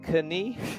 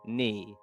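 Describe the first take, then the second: First: A K sound is pronounced before the N. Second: The word starts with N; K is silent. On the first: The speaker calls it wrong. "Do we say kani? Is that how we say it? Of course not" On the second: The speaker calls it right. "Just get rid of this K. Imagine it doesn't exist"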